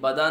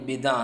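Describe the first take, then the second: First: The first syllable has the vowel 'a'. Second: The first syllable has the vowel 'i'. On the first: The speaker calls it wrong. "ये बदा नहीं है" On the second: The speaker calls it right. "ये बिदा है"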